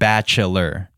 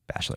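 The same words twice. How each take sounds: First: The word is said with three syllables. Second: The word is said with two syllables. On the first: The speaker calls it wrong. "Like three syllables" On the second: The speaker calls it right. "I thought it was bachelor"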